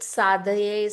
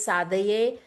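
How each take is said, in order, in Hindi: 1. इस शब्द को तीन अक्षरों में बोला जाता है। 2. इस शब्द को तीन अक्षरों में बोला जाता है।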